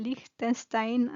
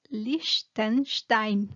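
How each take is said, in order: First: Liechtenstein as "Lik-ten-stain", with a plain s; unsure, drawn-out Spanish reading of Liechtenstein; tentative Spanish pronunciation. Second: Liechtenstein as "Lish-ten-shtain", with two sh sounds; German pronunciation. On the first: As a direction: try Liechtenstein slowly with a hard k and a hissed s. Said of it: "cómo se pronuncia en español". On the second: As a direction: say Liechtenstein slowly in German, syllable by syllable. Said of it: "pero en alemán es". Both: Shown as a demonstration.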